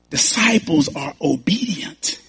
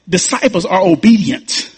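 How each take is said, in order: First: Softer, slow, rising on disciples; quieter repeat. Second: Said in the usual way. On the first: Shown as a demonstration. Pastor repeats the point to the church, softer and slower. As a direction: let it sink in, said softly and slowly.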